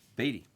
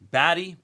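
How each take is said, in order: First: The first vowel sounds like 'bee'. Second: The first vowel sounds like 'bat'. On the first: The speaker calls it right. "I had it right the whole time" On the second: The speaker calls it wrong. "everybody corrected me to Batty"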